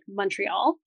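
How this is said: The first syllable sounds like 'mun'. "if you're Anglo-Canadian, we say like M-U-N"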